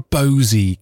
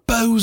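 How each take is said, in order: First: The name is said as two syllables. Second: The name is said as one syllable. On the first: "or a Bosey kind of girl" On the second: "are you a Bose"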